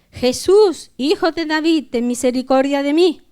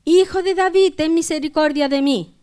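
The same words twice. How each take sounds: First: Crying out. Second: Much higher, raised plea for mercy; crying out harder. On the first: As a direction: call out for mercy in a raised reading voice. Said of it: "comenzó a dar voces". (clamando con voz alzada) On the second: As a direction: call out insistently, pitched right up. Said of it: "él clamaba mucho más". (clamor más insistente, con voz aguda) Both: A narrator's reading.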